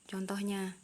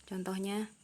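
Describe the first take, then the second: The two takes are said the same way.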